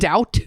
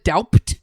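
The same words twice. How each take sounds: First: It is pronounced normally, with no b sound. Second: It is pronounced as spelled, with the b sounded. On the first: "Instead of" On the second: "pronouncing everything as close to how it's spelled"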